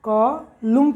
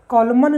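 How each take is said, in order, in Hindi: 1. यह शब्द m पर खत्म होता है, इसमें कोई n ध्वनि नहीं है। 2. यह शब्द एक सुनाई देने वाली n ध्वनि पर खत्म होता है। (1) "कॉलम पढ़ रहे हैं" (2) "ये कॉलमन नहीं पढ़ रहे हैं"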